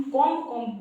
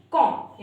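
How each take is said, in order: First: कॉम्ब said with the final b sounded; wrong way with b. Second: कॉम्ब said as kom, no b; correct, b silent. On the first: Teacher imitating the common wrong कॉम्ब with b. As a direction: say कॉम्ब ending on a b. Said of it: "वो हमारा wrong pronunciation है". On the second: Teacher giving students the correct कॉम्ब, b silent. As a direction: say कॉम्ब ending on the m. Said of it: "सही हमारा pronunciation क्या है". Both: Shown as a demonstration.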